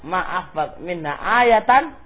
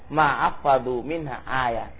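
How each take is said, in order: First: The last word ends with the syllable tan. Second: The last word ends with a bare t. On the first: "Jadi akhirnya kan ayatan" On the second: "Waqafnya pada tak"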